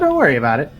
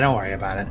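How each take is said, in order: First: It is said in a tense, uneasy tone. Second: It is said in a relaxed, dismissive tone. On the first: There is actually something to worry about. "oh, don't worry about it. You worry about it" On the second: There is truly nothing to worry about. "ah, don't worry about it. You don't worry about it"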